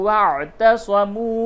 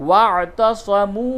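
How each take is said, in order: The two takes are said the same way.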